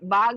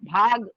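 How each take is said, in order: First: The first consonant has no breathy puff. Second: The first consonant has a heavy breathy puff. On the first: The speaker calls it wrong. "बाग नहीं बोलेंगे। अगर बाग बोले सादा बा ये वाला आएगा" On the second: The speaker calls it right. "भा भाग कर ला"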